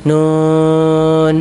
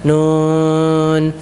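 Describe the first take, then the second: No difference in how they are said.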